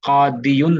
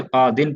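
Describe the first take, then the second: First: कादियुन with the full "-yun" ending; unused full form. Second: कादिन cut down to two syllables, qaa-din; shortened usual reading. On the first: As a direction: sound out qaa-di-yun in कादियुन. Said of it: "कादियुन नहीं पढ़ते". (कादियुन के अंत में "युन" साफ़ बोलकर) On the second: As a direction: drop the "yu" and read कादिन. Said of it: "कादिन पढ़ते हैं". (कादिन को "युन" के बिना छोटा पढ़कर) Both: Shown as a demonstration.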